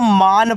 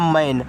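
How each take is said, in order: First: The vowel is a long open 'aa' sound. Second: The vowel is a front 'ae' sound. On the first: The speaker calls it wrong. "इसको मान पढ़ेंगे ... जो कि आपका गलत है" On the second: The speaker calls it right. "ए का उच्चारण ऐ की मात्रा"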